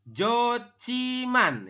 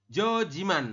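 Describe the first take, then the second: First: The middle consonant is an aspirated ch sound. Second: The middle consonant is a plain j sound. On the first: The speaker calls it right. "kita membacanya Jociman" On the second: The speaker calls it wrong. "bukan Jojiman"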